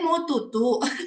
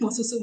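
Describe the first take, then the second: First: The second word starts with a t sound. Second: The second word starts with an s sound. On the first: It imitates a baby's lisping speech. The speaker calls it wrong. "jangan dicadel-cadelin ... Jadi jangan gini" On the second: It is the correct adult pronunciation. The speaker calls it right. "Mau susu maksudnya"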